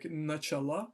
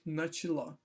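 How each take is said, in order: First: The middle vowel sounds like a full 'a'. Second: The middle vowel sounds like a reduced 'i'. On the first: The speaker calls it wrong. "you're not going to pronounce it like nachala" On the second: The speaker calls it right. "but more like nachila"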